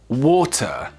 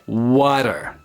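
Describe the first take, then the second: First: It is said in a British accent. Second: It is said in an American accent.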